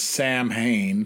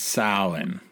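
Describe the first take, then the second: First: It is said as spelled, like sam-hain. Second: It is said like sow-in, not as spelled. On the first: The speaker calls it wrong. "it's written as Samhain" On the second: The speaker calls it right. "It's Samhain"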